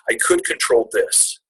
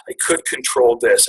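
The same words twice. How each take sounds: First: Fighting back tears on the words; real emotion breaking through the line. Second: Said in the usual way. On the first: Real, not acted. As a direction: pitch cracks way up, slow and choked. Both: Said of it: "Okay, sorry".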